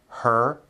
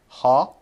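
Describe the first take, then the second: First: The vowel is a strong r-colored er sound. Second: The vowel is a plain open ah without r. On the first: The speaker calls it right. "an American would say" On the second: The speaker calls it wrong. "with a Japanese accent, it would be something like"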